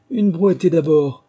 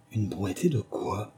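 First: Loud, slow call; rabbit's order. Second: Soft, slow puzzled question; Alice wondering to herself. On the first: The rabbit ordering a barrow load, loud and slow. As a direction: order it out slowly. Le lapin qui disait. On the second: Alice wondering to herself, soft and slow. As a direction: think it quietly. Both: A narrator's reading.

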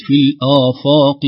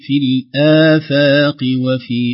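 First: Loud, slow الآفاق with dark "aw"-like long vowels; wrong heavy vowels. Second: Slow, loud الآفاق with thin long "aa"; light hamza and fa. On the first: Teacher showing the mistake, heavy vowels. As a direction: thicken hamza and fa in الآفاق. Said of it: "وليست". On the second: Teacher correcting the reading, light hamza and fa. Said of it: "ترقيق الهمزة بمدها والفاء". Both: Shown as a demonstration.

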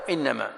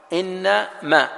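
First: إنما as a single unbroken word, "innama"; said as joined. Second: إنما split into two words, "inna... ma", higher pitched; said as separated. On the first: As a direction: say إنما in one go, no break before ma. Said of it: "وأحيانًا متصلة". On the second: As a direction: break إنما after inna, then a separate ma. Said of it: "مفصولة". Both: Shown as a demonstration.

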